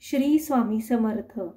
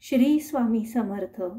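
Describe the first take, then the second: No difference in how they are said.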